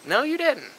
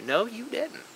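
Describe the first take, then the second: First: Higher, flat-out final denial with falling end; firm no. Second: Softer, rising, half-questioning rebuttal; skeptical no. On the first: Shutting down the excuse "I had to", a firm final no. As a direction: land "didn't" hard and finish it. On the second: Answering the excuse "I had to", a skeptical rising no. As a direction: ask "No, you didn't" with a doubtful lift. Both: Shown as a demonstration. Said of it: "repeated rebuttal, second firmer".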